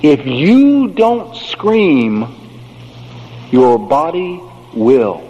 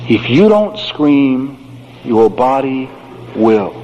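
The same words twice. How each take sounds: First: "scream" drawn out slow and heavy; slow emphatic maxim; slow weighted saying. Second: "will" set apart after a pause, low and final; slow deliberate repeat with pause; slow spaced repeat. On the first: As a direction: deliver it like a solemn warning. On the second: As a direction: land "will" alone, deep and final. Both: Shown as a demonstration. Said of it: "There's a great saying".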